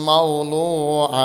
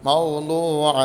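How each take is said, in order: Both takes have the same delivery.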